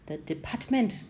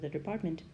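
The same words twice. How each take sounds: First: Every sound in the words is clearly articulated. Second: The words are mumbled and run together. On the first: The speaker calls it right. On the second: The speaker calls it wrong.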